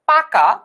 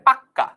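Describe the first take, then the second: First: The middle k sound is short and single. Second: The middle k sound is held and doubled.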